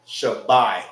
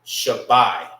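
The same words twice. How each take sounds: First: "Shabbai" said again, falling at the end; correct reading repeated. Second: "Shabbai" with the middle A dropped, louder; correct reading. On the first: Teacher repeating the correct word for students. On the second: Teacher giving students the right pronunciation. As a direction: say "Shabbai" as one tight word. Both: Shown as a demonstration. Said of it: "that word will be".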